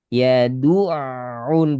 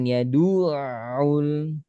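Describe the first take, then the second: First: The emphasis falls on the ain sound. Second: The emphasis falls on the du sound. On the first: The speaker calls it right. "Nekannya pada ain sukun bukan dal domah" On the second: The speaker calls it wrong. "Ada penekanan suara pada du, kurang tepat"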